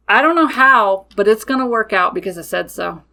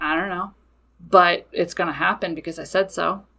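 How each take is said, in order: First: Firm declaration. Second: Quieter, lower, dry and unbothered; matter of fact. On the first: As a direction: state it as settled fact, no room for doubt. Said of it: "I state it just like that". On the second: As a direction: shrug it off as plain fact. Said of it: "It's just very matter of fact". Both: Retold or imitated.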